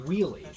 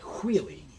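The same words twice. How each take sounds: First: It begins with a plain w sound. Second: It begins with a breathy hw sound. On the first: "normally someone would say wheelie" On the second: "you say wheelie with the H"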